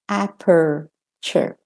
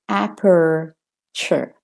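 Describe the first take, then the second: First: It is spoken in an American accent. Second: It is spoken in an American accent.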